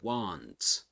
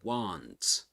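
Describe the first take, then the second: First: The vowel is an American open ah sound. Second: The same.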